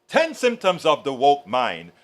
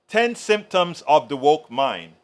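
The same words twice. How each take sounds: The two takes are said the same way.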